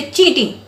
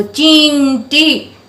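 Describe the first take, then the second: First: Said in the usual way. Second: चींटी drawn out slowly, the nasal न held long; stretched nasal sound. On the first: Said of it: "चींटी ऐसे बोलते हैं". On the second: Shown as a demonstration. Teacher to children, lengthening the nasal in चींटी for clarity. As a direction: hold the न in चींटी long and slow. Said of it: "थोड़ा sound को लंबा कर रही हूँ".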